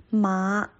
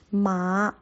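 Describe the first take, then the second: No difference in how they are said.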